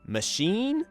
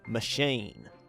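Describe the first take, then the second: First: The final vowel is one steady sound. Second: The final vowel glides between two qualities.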